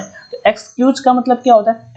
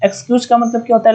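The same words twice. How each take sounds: First: Said in the usual way. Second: Faster rattled-off repeat of the question; quick repeat. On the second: Shown as a demonstration. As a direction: fire the question again quickly. (जल्दी से दोहराया गया सवाल)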